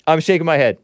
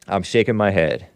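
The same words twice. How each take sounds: First: Mock dismay. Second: Said in the usual way.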